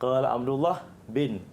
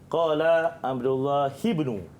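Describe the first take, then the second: First: The short form bin follows Abdullah. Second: The full form ibnu follows Abdullah. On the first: The speaker calls it wrong. "Tadi Aras baca" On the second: The speaker calls it right. "kalau ikutkan bacaannya betul, hafazannya betul, murid kena baca"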